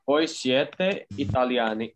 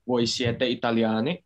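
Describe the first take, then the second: First: The tune sounds like a plain statement. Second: The tune sounds like a question. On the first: It states that they are Italian. "kalau ini pernyataan ya" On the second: It asks whether they are Italian. "Hanya yang harus dibedakan itu nadanya. ... Apakah kalian orang Italia?"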